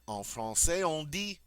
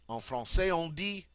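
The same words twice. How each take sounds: No difference in how they are said.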